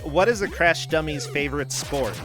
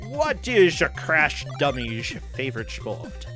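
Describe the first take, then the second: First: It is said in an ordinary, natural voice. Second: It is said in a put-on celebrity impression voice.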